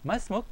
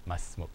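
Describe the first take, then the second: First: "Masmuk" high, rising into a question; "Masmuk" as a high-pitched query, ending upward; questioning intonation. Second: "Masmuk" low and soft, falling like a statement; "Masmuk" said as a plain fact, pitch dropped; statement intonation. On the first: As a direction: ask "Masmuk" with a clearly lifted pitch. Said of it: "like a question". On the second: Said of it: "like a statement". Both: Shown as a demonstration.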